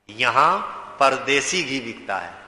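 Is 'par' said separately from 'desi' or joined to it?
joined. Par and desi run together as one word.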